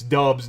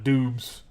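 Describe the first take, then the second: First: The vowel is a short 'uh' sound. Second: The vowel is a long 'oo' sound. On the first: The speaker calls it right. "It's Dubs" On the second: The speaker calls it wrong. "not Dubes"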